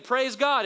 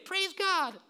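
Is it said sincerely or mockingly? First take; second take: sincerely; mockingly. First: It is said sincerely and plainly. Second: It is said in a mocking voice.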